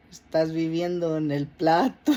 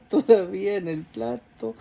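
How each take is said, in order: First: Said in the usual way. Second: Quoting through a laugh. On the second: Retold or imitated. Retelling the priest's repeated line, laughing. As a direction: let the laugh break into the words. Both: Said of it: "I even laughed".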